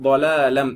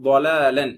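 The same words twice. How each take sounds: The two takes are said the same way.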